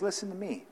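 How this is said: It is said flatly and passively.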